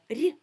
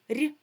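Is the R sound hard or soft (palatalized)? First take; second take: soft; soft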